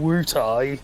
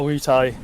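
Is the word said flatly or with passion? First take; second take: with passion; flatly. First: The word is said with strong passionate feeling. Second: The word is said flatly, without strong feeling. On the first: The speaker calls it right. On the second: The speaker calls it wrong.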